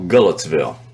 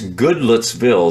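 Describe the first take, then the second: First: Letters are dropped and the first syllable is reduced. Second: Every letter is sounded, the first syllable in full. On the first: It is how the locals say it. "They just kind of like to eliminate letters" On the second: It follows the spelling. "That's the way you spell it"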